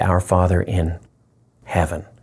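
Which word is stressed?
heaven. The stress falls on the word heaven.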